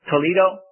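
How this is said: The name is said with an English pronunciation. The speaker calls it wrong. "in English they call it"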